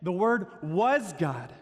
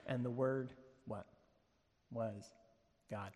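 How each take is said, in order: First: Slow, emphatic "was", pitched up; stress on WAS. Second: Hushed, halting reveal with long pauses; suspenseful reading. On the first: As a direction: land hard and long on "was". Emphatic repeat as the revelation lands. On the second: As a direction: hold back "Was God", then set it down softly and low. Suspenseful scripture reading before the revelation. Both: Shown as a demonstration.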